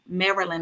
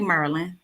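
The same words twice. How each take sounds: First: It is said the standard way. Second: It is said the DC way.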